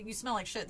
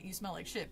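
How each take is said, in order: First: Said in the usual way. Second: "You smell like shit" said softly in a polite British accent; a posh-sounding British put-down; quiet British accent insult. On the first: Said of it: "they're not gonna say". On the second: Shown as a demonstration. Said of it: "but with a, an accent".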